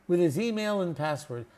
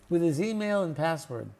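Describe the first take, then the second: The two takes are said the same way.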